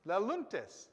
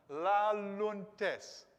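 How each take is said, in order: First: Laluntes, fluent and even; teacher showing how Laluntes sounds; rolled off the tongue. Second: Laluntes, long and smooth; teacher savouring Laluntes for the class; drawn out model. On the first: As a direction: let Laluntes roll off the tongue. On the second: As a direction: stretch Laluntes so it rolls. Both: Shown as a demonstration. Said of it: "rolls off the tongue".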